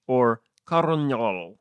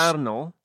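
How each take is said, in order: First: "coronol" slowly, with r sounds: "kor-o-nyol"; Scottish coronol. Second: "colonel" said as "kernel". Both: Shown as a demonstration. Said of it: "I don't know whether to say".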